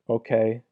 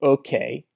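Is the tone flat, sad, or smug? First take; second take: flat; smug. First: It is said flatly, without emotion. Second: It is said in a smug, annoying way.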